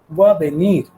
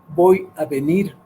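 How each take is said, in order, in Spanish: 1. Las palabras se unen y se omiten algunos sonidos. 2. Cada palabra se pronuncia completa y por separado. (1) "sino simplemente dice" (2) "que es como escribiríamos"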